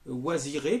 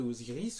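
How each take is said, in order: First: The name is pronounced Waziré. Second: The name is pronounced Osiris. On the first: This is the original African form of the name. "avec une vocalisation proprement africaine" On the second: This is the Greek adaptation of the name. "Osiris c'est l'hellénisation"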